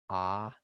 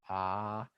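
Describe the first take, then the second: First: The vowel is held short. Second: The vowel is held long. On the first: "the T actually is a longer Ah than the line" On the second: "the T actually is a longer Ah than the line"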